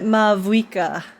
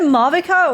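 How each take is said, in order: First: The middle is a rounded 'vwee' sound. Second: The middle is a plain 'vee' sound. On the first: The speaker calls it right. "I'll try to pronounce it correctly" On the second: The speaker calls it wrong. "I keep saying Mavica, but I feel like that's incorrect pronunciation"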